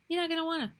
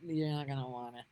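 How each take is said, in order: First: Emphatic repeat. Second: Said in the usual way. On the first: Real, not acted. Warning viewers off the news.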